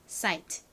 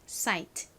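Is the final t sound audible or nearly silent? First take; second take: audible; audible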